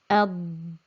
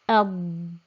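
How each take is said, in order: Both takes have the same delivery.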